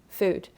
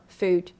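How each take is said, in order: Both takes have the same delivery.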